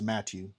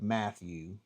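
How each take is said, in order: First: The middle sound is a plain t. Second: The middle sound is a th. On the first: "they would definitely come off as" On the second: "instead of"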